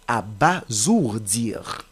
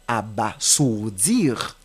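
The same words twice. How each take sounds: First: The middle consonant is a buzzing z sound. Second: The middle consonant is a hissing s sound. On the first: The speaker calls it right. "le S qui se trouve entre A et O doit se prononcer comme Z" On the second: The speaker calls it wrong. "Ce n'est pas abasourdir"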